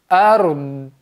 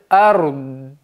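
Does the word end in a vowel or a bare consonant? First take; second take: bare consonant; bare consonant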